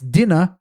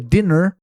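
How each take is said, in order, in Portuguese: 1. O R final é fraco e quase não se pronuncia. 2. O R final é forte e bem pronunciado.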